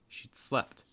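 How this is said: The stress falls on the second word. "notice the stress typically falling on the participle"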